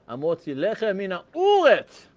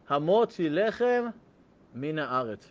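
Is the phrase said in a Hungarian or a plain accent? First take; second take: Hungarian; plain. First: It is said in a Hungarian accent. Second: It is said in a plain accent.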